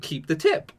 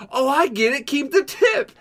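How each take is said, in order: First: Said in the usual way. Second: High, excited imitation of finally getting it; mock delayed realization. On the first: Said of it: "He said". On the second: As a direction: Keep the tip squeaked up high in mock discovery. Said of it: "And he's like".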